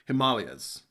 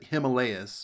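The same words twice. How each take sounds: First: It uses a non-American pronunciation. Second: It uses the common American pronunciation. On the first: "I'm pretty sure it's pronounced" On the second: "people here in the U S. People people pronounce it"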